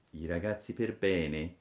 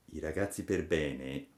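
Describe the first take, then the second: No difference in how they are said.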